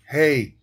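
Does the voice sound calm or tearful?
calm. It is said in a calm voice.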